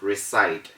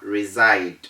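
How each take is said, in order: First: The middle consonant is an s sound. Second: The middle consonant is a z sound. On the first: The speaker calls it wrong. "instead of reside" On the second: The speaker calls it right. "We also have reside"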